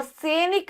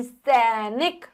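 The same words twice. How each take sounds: First: सैनिक with an e, 'se-nik'; mispronounced सैनिक. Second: सैनिक as a slow 'saai-nik'; slow सैनिक with a wide first vowel; ai sound. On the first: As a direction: say सैनिक wrongly as 'say-nik'. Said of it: "सैनिक नहीं". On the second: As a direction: draw out the ai in सैनिक. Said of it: "आई आएगा". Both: Shown as a demonstration.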